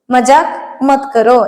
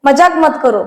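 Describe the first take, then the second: First: "മജാക്ക് മത് കറോ" said again, slowly; slow it down the second time for learners; teacher repeating the phrase slowly. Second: Said in the usual way. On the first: Shown as a demonstration. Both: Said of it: "അപ്പൊ നമുക്കത് ഇഷ്ടപ്പെടില്ല".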